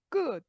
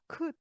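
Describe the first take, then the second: First: The consonant is tense, with no puff of air. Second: The consonant is aspirated, with a puff of air. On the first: This is how Latin languages say it. "라틴어에서는" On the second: This is how English says it. "영어에서는 격음으로, 격음으로 발음한다"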